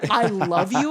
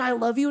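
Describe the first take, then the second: First: It is shouted loudly. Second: It is said plainly at normal loudness.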